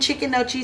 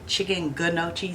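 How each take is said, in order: First: No G sound is heard before the N. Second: A G sound is heard before the N. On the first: The speaker calls it right. "you don't pronounce the G" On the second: The speaker calls it wrong. "I always say chicken gnocchi"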